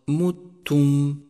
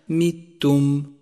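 First: The first m is followed by u. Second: The first m is followed by i. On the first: The speaker calls it right. "انتبه إلى ضمة الميم" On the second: The speaker calls it wrong. "واحذر من كسرها"

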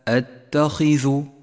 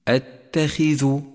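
First: The kh sound is strongly heavy. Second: The kh sound is only lightly heavy. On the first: The speaker calls it wrong. "وليس أتخذ، فهذا خطأ" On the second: The speaker calls it right. "تفخم بأدنى مراتب التفخيم"

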